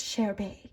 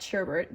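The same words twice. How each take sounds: First: Sherbet said as "share-BAY"; French-style Sherbet. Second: Said in the usual way. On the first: Shown as a demonstration. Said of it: "we're a fancy French boy". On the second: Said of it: "like the ice cream".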